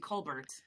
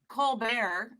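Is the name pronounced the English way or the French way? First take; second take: English; French. First: The name is said with an English pronunciation. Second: The name is said with a French pronunciation. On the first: This is how most people say it. "most people do" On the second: This is the original pronunciation. "is actually the French"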